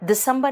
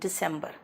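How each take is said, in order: First: It is pronounced like the Hindi month name. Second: It is pronounced like the English month name. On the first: The speaker calls it wrong. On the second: The speaker calls it right.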